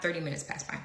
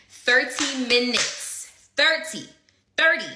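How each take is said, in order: First: Said in the usual way. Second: Thirty said slow, loud and punched; stressing thirty. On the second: Real, not acted. Telling friends how long the wait lasted, Thirty stressed hard. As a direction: hammer the word Thirty.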